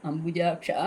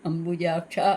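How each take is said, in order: The two takes are said the same way.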